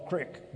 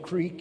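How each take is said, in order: First: The vowel is short, like 'ick'. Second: The vowel is long, like 'eek'. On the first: This is the local Indiana form. "you call it crick" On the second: This is the standard form not used locally. "you don't say the word creek"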